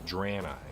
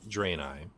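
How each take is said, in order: First: The first syllable rhymes with Bran. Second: The first syllable does not rhyme with Bran. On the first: This is the newer way of saying the name. "it has since been retconned to be" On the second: This is the older way of saying the name. "it used to be called"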